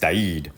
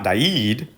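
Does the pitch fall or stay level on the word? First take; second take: falls; level. First: The pitch drops down through the word. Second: The pitch does not drop on the word. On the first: The speaker calls it right. "it has to go down when you do it" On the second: The speaker calls it wrong. "It's not Died"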